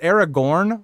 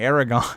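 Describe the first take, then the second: First: The name has an r sound before the end. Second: The name has no r sound before the end. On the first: The speaker calls it right. "there's the R and the N" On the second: The speaker calls it wrong. "I keep saying Aragon"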